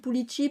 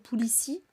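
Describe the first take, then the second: First: The x is said as an 'sh' sound. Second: The x is said as an 's' sound. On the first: "je le prononce comme le X basque" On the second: "il se prononcerait plutôt comme un se"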